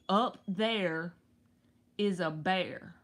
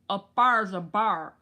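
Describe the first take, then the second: First: Each word is said separately in a plain accent. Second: The words run together, with bear sounding like bar. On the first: "just say" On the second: "They say"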